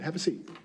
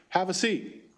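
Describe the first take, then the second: First: It is said in a softer, calmer voice. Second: It is said as a firm, loud command. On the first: It is a calming invitation that lowers stress. The speaker calls it right. "maybe I should just change the way I say it" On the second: It is an order that must be obeyed. The speaker calls it wrong. "if I give a command in a loud voice"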